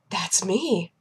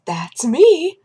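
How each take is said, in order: First: Gasp, then soft whisper; gasping awe. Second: Higher, voiced, exultant announcement; mock proud delight. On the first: Retold or imitated. Woman hears her number called, awed whisper. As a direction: breathe it out in hushed mock amazement. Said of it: "she got up and she goes". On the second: Woman walks up to desk, mock proud delight. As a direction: announce yourself with a raised, swooping voice. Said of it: "starts walking and goes".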